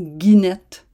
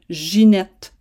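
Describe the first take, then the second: First: The name begins with a hard g sound. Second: The name begins with a soft j sound. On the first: The speaker calls it wrong. "et non Guinette" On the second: The speaker calls it right. "il faut prononcer Ginette"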